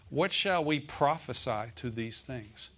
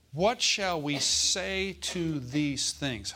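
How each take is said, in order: First: Said in the usual way. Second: Slow reading. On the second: Shown as a demonstration. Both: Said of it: "Or not, let me say it like this".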